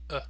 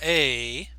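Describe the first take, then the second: First: The word has a short, relaxed schwa vowel. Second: The word has a full, long vowel. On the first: "to the reduced form" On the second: "going from the full form"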